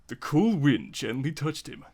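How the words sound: It is read in an overacted, hammy voice.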